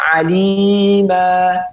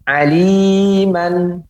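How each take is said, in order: First: The word ends with a lengthened vowel. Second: The word ends with an n sound. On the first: The speaker calls it right. "dibaca alima" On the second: The speaker calls it wrong. "ya tidak seperti itu cara membacanya"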